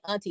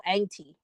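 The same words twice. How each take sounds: First: Said in the usual way. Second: "auntie" with the first vowel like "ain't"; Southern "auntie". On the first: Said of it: "don't even say auntie". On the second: Shown as a demonstration. Showing how folks down south say it, "auntie" as "ain-tee". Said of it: "They go auntie".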